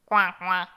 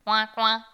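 First: Loud, commanding duck call; a mother duck's loud command; commanding quack. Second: Loud quacking coin coin from the mother duck; loud duck's quack; duck quack call. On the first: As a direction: order the ducklings into the water. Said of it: "commanda-t-elle". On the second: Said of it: "dit la canne". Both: A narrator's reading.

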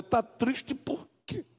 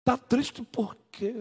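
First: Slow, higher mock question; mocking the offender. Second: Slow, higher mock question; mocking the offender again. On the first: Pastor mimics offender asking the hurt sister. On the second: Pastor repeats the offender's question mockingly. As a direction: drag out the careless question. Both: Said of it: "a pessoa que feriu perguntar a você".

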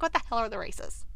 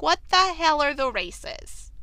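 First: Said in the usual way. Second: Higher, slow, emphatic disbelief; exaggerated bafflement. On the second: Viewer reacting to a puzzling announcement, exaggerated bafflement. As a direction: drag it out, utterly baffled.

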